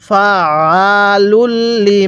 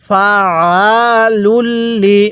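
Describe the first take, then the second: Both takes have the same delivery.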